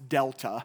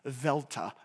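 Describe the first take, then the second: First: The word begins with a d sound. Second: The word begins with a v sound. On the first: The speaker calls it wrong. "the word delta is not pronounced delta" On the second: The speaker calls it right. "If you used it in Koine Greek, it would be pronounced velta"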